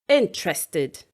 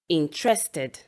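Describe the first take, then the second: First: The stress is on the first syllable. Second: The stress is not on the first syllable. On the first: The speaker calls it right. "the stress is on the first syllable of the word" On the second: The speaker calls it wrong. "People would usually say"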